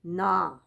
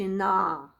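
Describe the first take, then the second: The two takes are said the same way.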